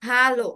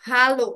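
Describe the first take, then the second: No difference in how they are said.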